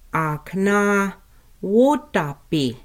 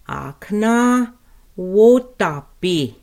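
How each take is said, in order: First: Said in the usual way. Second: "Akna wotapi" drawn out, "wotapi" louder; slow careful Lakota. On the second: Shown as a demonstration. Teacher modelling table for learners, slow. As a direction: stretch "wotapi" clearly. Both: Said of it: "Let's pronounce table".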